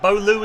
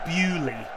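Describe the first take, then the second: First: The name is said as 'Bow-loo', following spelling. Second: The name is said as 'Bew-ley', unlike spelling. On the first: The speaker calls it wrong. "Bowloo is exactly how that word looks" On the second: The speaker calls it right. "but it's Bewley"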